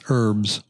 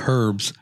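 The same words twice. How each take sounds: First: The word begins with no H sound. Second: The word begins with an audible H sound. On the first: The speaker calls it right. "You don't say the H, it's herbs" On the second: The speaker calls it wrong. "I noticed he just said herbs"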